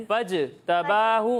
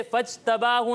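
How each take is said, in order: First: फजतबाहु slowly, the ज bouncing back; echoing qalqala. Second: फजतबाहु with the ज stopped dead, no echo; without qalqala. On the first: Teacher showing children qalqala, a bouncing ज in फजतबाहु. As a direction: let the ज in फजतबाहु echo, drawn out. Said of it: "जीम की आवाज़ लोटती हुई महसूस". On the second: Teacher showing children the wrong reading, no qalqala in फजतबाहु. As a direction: say फजतबाहु with no bounce on the ज. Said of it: "इसे फजतबाहु नहीं पढ़ेंगे". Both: Shown as a demonstration.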